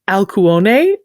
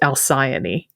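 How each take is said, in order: First: The name is said with an ancient Greek pronunciation. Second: The name is said with a common English pronunciation. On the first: "In ancient Greek, her name was Alcuone" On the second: "In English, ... it's commonly pronounced Alcyone"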